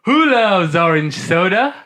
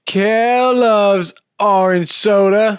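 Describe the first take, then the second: First: Rising call for the response; host cueing cohost, rising catchphrase call. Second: Much higher, slow Kel voice; Kel catchphrase. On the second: Cohost answering the cue, high slow Kel voice. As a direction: sing it out like Kel. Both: Shown as a demonstration. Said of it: "We'll do it again".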